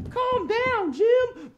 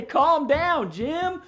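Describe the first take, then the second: First: Very high falsetto echo; high echo call. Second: Loud, raised-pitch calming call; group call-out. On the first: Pretend. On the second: Shown as a demonstration. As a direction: lead everyone in telling the dog to settle. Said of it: "Everybody say".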